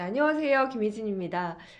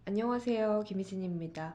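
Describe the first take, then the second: First: It is spoken in a louder, fuller voice. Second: It is spoken in a small, quiet voice. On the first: The speaker seems confident and self-assured. The speaker calls it right. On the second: The speaker seems timid and unsure. The speaker calls it wrong.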